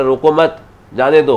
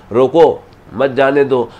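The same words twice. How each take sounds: First: रोको मत run together, then जाने दो set apart; pause after मत. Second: रोको set off alone, then मत जाने दो run together; pause after रोको. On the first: Astrologer moving the comma to flip meaning, pause after मत. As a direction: break after मत, keep रोको joined to it. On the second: Astrologer showing how a comma shifts meaning, pause after रोको. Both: Shown as a demonstration. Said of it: "अब comma लगा दिया".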